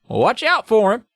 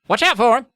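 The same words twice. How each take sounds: First: It is said with mild sharpness. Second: It is said with much harsher sharpness.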